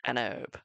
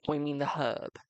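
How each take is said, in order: First: An herb with a silent H; mock the American way: an herb, no H; an herb said erb, American style. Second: Herb with a clear H sound; the herb with the H spoken; British herb. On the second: Shown as a demonstration. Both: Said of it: "or as the Americans call it".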